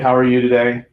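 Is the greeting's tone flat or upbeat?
flat. The tone is flat and low in energy. The speaker seems uninterested and unconfident. The speaker calls it wrong. "How was my tonality? Garbage, right?"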